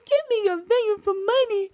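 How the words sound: It is read in a put-on voice for Naboth.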